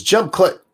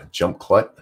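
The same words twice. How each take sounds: First: Reading the caption out crisply, higher and louder. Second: Rising, disbelieving repeat of the caption; baffled echo; puzzled question. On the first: Shown as a demonstration. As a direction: announce the quoted caption. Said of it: "It says". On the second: Real, not acted. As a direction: question what you just read.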